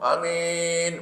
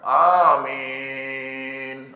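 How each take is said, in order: First: The first vowel is held for one beat. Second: The first vowel is held for two beats. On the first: "A tu satu" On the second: "A dia dua harakat"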